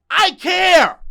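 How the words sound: It is yelled loudly. "You already yell it"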